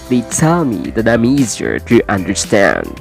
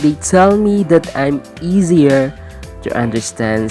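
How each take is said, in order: First: The words run together like one long word. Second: Each word is said separately, one by one. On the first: The speaker calls it right. "say it" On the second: The speaker calls it wrong. "instead of saying"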